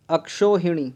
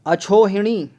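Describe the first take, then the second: First: अक्षोहिणी with a k before sho; ksh form. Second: अछोहिणी higher and louder with chho; wrong chh form. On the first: Teacher testing a spelling, अक्षोहिणी with ksh. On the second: Teacher testing a spelling, अछोहिणी loudly with chh. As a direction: put chho in place of ksho in अछोहिणी. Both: Shown as a demonstration. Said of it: "ये भी गलत हो गया".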